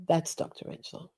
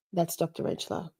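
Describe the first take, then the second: First: Whispered intro. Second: Breathy hushed intro. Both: Shown as a demonstration. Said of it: "And this is Doctor Rentschler".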